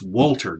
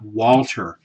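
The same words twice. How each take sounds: First: The first syllable sounds like 'wool'. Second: The first syllable does not sound like 'wool'. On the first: The speaker calls it right. "Think of like a sheep's wool" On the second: The speaker calls it wrong. "it's not Wolter"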